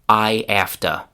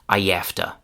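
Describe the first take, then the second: First: The h is dropped, with no linking y. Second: A y sound links I to afta. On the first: "we throw away the h sound at the beginning of have" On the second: "we can add a little y sound between I and afta"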